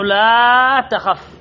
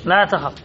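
First: Slow, with لا held very long; long, lingering لا before تخف; drawn-out example. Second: Said in the usual way. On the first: Shown as a demonstration. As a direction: stretch the vowel of لا out, then finish on تخف. Teacher draws out the quoted example.

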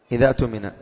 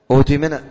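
First: إذا اؤتمن run together as "iza tumina", hamza dropped; إذا اؤتمن read in one breath, the alif silent, "tumina"; connected reading. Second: اؤتمن opened with a clear u, "utumina"; اؤتمن read as the first word, starting "u-tumina". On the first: Teacher reads إذا اؤتمن joined to the word before, "iza tumina". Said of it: "وإذا كان الوصل". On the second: Teacher shows students اؤتمن said from a fresh start, "utumina". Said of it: "ابتداء". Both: Shown as a demonstration.

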